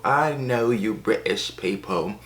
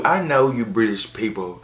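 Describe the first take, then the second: First: Slow, put-on British accent; mock British accent. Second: Said in the usual way. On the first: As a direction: stretch it out in a hammed-up British accent. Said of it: "Americans can't do British accents".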